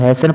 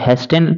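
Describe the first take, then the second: First: The t sound is left out entirely. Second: The t sound is pronounced in the middle. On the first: The speaker calls it right. "इसको हैसन पढ़ेंगे, यानी टी को silent कर देंगे" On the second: The speaker calls it wrong. "हेस्टेन लिखाया है"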